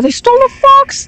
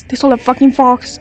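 First: Shrieks it out, much higher; shocked shriek. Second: Said in the usual way. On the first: Real, not acted. Fan watching a music video shrieks in shock. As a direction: squeal of disbelief at the screen.

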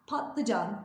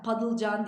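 First: "Patlıcan" as pat-lı-can; t before l in "Patlıcan"; correct pronunciation. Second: "padılcan" louder, with d and swapped ı-l; wrong pronunciation. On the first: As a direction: clearly release the t of "Patlıcan". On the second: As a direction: soften t to d in "padılcan". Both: Shown as a demonstration. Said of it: "padılcan değil".

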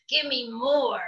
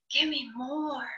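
First: Stubborn bird croak. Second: Soft, hushed tempting murmur; whispering. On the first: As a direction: croak it like a greedy buzzard. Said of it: "Still the bird croaked". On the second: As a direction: breathe it like a temptation. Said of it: "whispering to me". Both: A narrator's reading.

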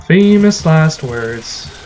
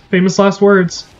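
First: Famous last words drawn out slowly; mock-ominous Famous last words; slow ominous drawl. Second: Said in the usual way. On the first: Shown as a demonstration. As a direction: stretch each word of Famous last words out.

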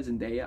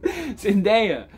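First: Unsure try at the name. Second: Zendaya. drawn out, higher and firm; confident final try at the name. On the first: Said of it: "I'm gonna call her [name] the entire time". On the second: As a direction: land the name Zendaya. with mock certainty. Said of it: "I'm gonna call her [name]". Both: Shown as a demonstration.

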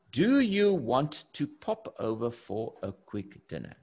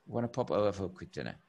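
First: Over-articulate every word, no contractions; careful full-form speech. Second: Quick, run-together "Wanna pop over"; rapid, low, casual invitation; fast everyday speech. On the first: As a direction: stiff textbook delivery, each word separate. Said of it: "We don't talk like this". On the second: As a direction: rattle it off casually and softly. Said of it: "We, we talk fast". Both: Shown as a demonstration.

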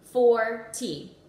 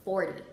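First: "Four T." split into two louder beats; chopped syllables. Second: Said in the usual way. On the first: Shown as a demonstration. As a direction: chop "Four" and "T" apart, loud and separate. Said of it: "I'm gonna chop out the syllables". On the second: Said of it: "slide them left to right".

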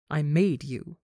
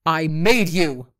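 First: Said in the usual way. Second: Loud, slow, drawn-out snap; angry snap. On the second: A narrator's reading. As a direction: snap it, leaning hard on MADE. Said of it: "as she snaps".

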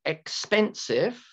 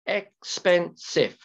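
First: EXPENSIVE said slowly, higher, ending on a rise; slow example word. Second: EXPENSIVE in three slow, separate beats, ek-spen-sive; syllable by syllable. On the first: Teacher asking students to count syllables, slow rising EXPENSIVE. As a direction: offer EXPENSIVE slowly as a question. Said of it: "how many syllables?". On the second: Teacher counting three syllables, EXPENSIVE slowly split into parts. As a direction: break EXPENSIVE into ek, spen, sive, falling at the end. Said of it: "three syllables". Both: Shown as a demonstration.

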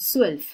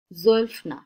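First: সোয়েলফ with a crisp ts-like s sound, no j; correct pronunciation. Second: জোয়েলফ with a voiced j sound, shown as the mistake; wrong pronunciation. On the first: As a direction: start সোয়েলফ with a sharp hissed s, not a j. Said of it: "জ উচ্চারণ হবে না, এরকম একটা উচ্চারণ হবে". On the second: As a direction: demo the wrong জোয়েলফ, then reject it. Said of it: "এটা অনেকে জয়ের উচ্চারণ করে, এটা সঠিক না". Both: Shown as a demonstration.

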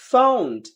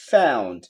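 First: High British "found" with AH-oo; British accent. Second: Low American "found" starting on AE; American accent. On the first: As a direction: lift "found" as FAH-oond. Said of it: "ব্রিটিশরা আও বলে". (British উচ্চারণে) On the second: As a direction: drop "found" as FAE-oond. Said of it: "আমেরিকানরা অ্যাও বলে". (American উচ্চারণে) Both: Shown as a demonstration.

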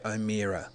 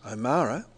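First: O'Meara said the common wrong way, middle like Mia, oh-MEE-ra; O'Meara with ear in the middle, as it looks; wrong pronunciation. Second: O'Mara said oh-MAH-ra, middle like Ma; O'Mara, no ear sound in the middle; correct pronunciation. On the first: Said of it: "will say O'Meara". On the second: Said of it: "see, I've just said it wrong". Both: Shown as a demonstration.

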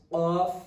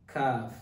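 First: Qaf loud and high, with the qa sound; qaf, not kaf. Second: Kaf with a light k sound; kaf, not qaf. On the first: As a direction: model QAF distinct from kaf. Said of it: "this one is qaf". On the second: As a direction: model KAF distinct from qaf. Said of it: "this one kaf". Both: Shown as a demonstration.

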